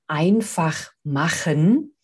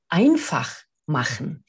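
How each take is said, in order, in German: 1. Die Betonung liegt auf dem Wort machen. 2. Die Betonung liegt auf dem Wort einfach. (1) "du hast gerade schon gesagt" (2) "eine andere Intonation mit reinbringen"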